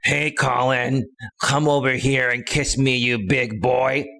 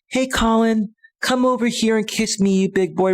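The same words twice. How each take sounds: First: The voice is rough and not sensual. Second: The voice is soft, sweet and sensual. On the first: The speaker calls it wrong. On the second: The speaker calls it right.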